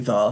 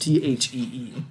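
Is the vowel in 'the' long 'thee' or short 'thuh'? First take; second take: short 'thuh'; long 'thee'. First: The word is said with a short reduced vowel. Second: The word is said with a long 'ee' vowel. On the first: The word is said in the ordinary way. "They say "the."" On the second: The word is given extra emphasis. "for emphasis, it's THEE"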